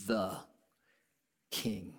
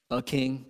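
First: THE set apart, then a long pause before king; stress on THE. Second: Said in the usual way. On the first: Shown as a demonstration. Preacher tells listeners it's far more than a king, stress on THE. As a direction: hold back "king" after a weighted "the".

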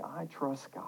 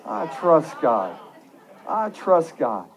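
First: Soft, low, matter-of-fact statement; understated. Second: Firm, slow declaration; more confident. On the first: Preacher giving the congregation a line to repeat, softly. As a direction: say it quietly, without pushing. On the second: Preacher leading the congregation to repeat it, confidently. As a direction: say it slowly with conviction. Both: Shown as a demonstration. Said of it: "Say it with a little more confidence".

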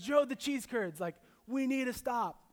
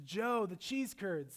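First: Higher, louder pleading wife; hammed-up wife begging for cheese curds; imitating wife, pleading. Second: Imitating wife. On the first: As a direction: whine it out like an eager wife begging to stop. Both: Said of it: "That's how she speaks".

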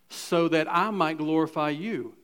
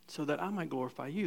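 First: Said in the usual way. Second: Softer and faster, half to himself; a murmured, hurried repeat of the verse; quick quiet aside. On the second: Shown as a demonstration. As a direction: toss it off under the breath, quicker.

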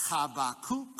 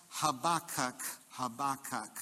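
First: Habakkuk with a throaty h, hah-bah-KOOK; Habakkuk the Hebrew way, hah-bah-KOOK; Hebrew pronunciation. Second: Habakkuk said huh-BAH-kuk, stress on BAH; Habakkuk with the weight on the second syllable. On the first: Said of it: "the Hebrew is even worse". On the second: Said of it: "with the emphasis on the second syllable". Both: Shown as a demonstration.

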